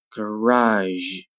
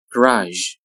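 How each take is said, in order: First: "Garage" with long vowel and final zh; slow careful "Garage"; drawn-out model. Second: Said in the usual way. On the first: Shown as a demonstration. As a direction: stretch "Garage" out for learners. Teacher models word slowly, then normally.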